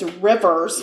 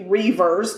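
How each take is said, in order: First: The first vowel is short, as in 'river'. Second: The first vowel is long, as in 'reave'. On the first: "I'm going to say her name is Rivers" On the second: "but it could be Reavers"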